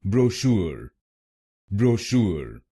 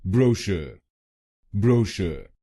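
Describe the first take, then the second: First: ब्रोशूर with SHOOR stressed, bro light; stress on second syllable. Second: brochure with BRO stressed, shuh weak; stress on first syllable. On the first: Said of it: "दूसरे शब्दांश पर जोर डालते हैं". (ब्रोशूर में दूसरे शब्दांश पर जोर) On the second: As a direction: hit BRO in brochure, let shuh fall away. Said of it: "पहले शब्दांश पर जोर डालना है". (ब्रोशर में पहले शब्दांश पर जोर) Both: Shown as a demonstration.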